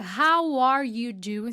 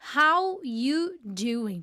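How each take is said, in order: First: The word 'are' is clearly pronounced. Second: The word 'are' is dropped entirely. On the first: It is the full written form. "se a gente fosse fazer a escrita ali correta" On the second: It is how people say it in everyday speech. "Parece que o are, ele nem existe"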